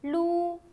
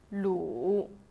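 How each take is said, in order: First: The pitch stays high and level. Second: The pitch dips low, then rises.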